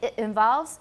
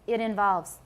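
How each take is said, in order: First: The T is cut off before the vowel. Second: The T links smoothly into the vowel. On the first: The speaker calls it wrong. "we don't say it involves" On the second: The speaker calls it right. "It's it involves"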